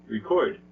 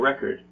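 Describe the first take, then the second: First: The stress is on the second syllable. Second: The stress is on the first syllable. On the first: It is a verb. "It's the second syllable" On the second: It is a noun. "the syllable re is a little bit louder and longer"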